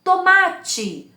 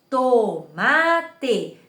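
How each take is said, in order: First: Said in the usual way. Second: "Tomate" drawn out syllable by syllable, to-ma-te; split into syllables. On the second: Shown as a demonstration. Teacher showing children counting syllables, drawn out. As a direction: open the mouth for each syllable of "Tomate". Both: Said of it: "Quantas vezes eu abro a boca pra falar tomate?".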